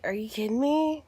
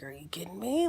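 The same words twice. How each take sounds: First: Said in the usual way. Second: Soft unvoiced whisper of disbelief. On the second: Learning the husband did this before, whispered disbelief. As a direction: breathe it in shock.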